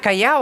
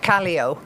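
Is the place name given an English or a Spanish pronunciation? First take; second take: Spanish; English. First: The name is said with a native Spanish pronunciation. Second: The name is said with an anglicised English pronunciation. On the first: "in Spanish" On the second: "she's speaking in English"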